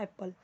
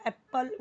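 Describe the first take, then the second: First: एप्पल said softly with one light p; relaxed, softer एप्पल, no doubled p; normal unforced apple. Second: एप्पल with the pp held and split; exaggerated एप्पल, a break at the double p; overdone double P. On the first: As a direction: say एप्पल naturally, lower and unforced. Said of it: "एप्पल ही बोलते हैं ना". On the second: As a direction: misread एप्पल by stressing both p sounds. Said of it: "वो नहीं, एप्पल ही बोलते हैं". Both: Shown as a demonstration.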